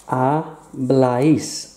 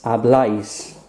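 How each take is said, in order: First: Habláis drawn out slowly, stress on the final syllable; teacher slowly sounds out Habláis for the class. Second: Said in the usual way. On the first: Shown as a demonstration. Teacher sounds out Habláis slowly. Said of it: "teacher models the verb slowly". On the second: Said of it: "teacher repeats at normal speed".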